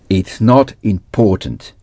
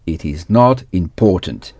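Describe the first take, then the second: First: It is contracted into one syllable. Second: It is said as two full words. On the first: "avec la contraction" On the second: "sans la contraction"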